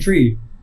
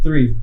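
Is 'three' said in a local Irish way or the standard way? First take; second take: Irish; standard. First: It is said in the local Irish way. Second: It is said in the standard way. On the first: "people in my school would say three" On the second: "instead of three"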